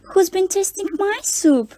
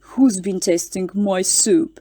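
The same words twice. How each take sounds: First: It is said in a sweet, gentle voice. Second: It is roared in a big, deep voice. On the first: "in her sweet voice" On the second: "roared in his great big voice"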